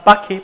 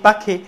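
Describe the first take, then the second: The two takes are said the same way.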